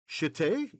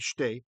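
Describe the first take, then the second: First: A short vowel separates the first two consonants. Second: The first two consonants run together without vowel.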